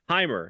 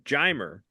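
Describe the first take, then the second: First: The name begins with an H sound. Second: The name begins with an English J sound. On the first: "Isn't the J, huh? Isn't that the sound it makes?" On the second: "Why do they pronounce the J?"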